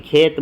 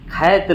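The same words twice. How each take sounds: First: खेत with a pure 'e'; simple e vowel. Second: खैत with a wide 'ai' instead of e; open ai vowel. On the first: Teacher showing the right form, pure e in खेत. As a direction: say खेत with a plain closed e. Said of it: "खेत बोलते हैं". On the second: Teacher showing the rejected form, wide 'ai' in खैत. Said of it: "खैत नहीं बोलते हैं". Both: Shown as a demonstration.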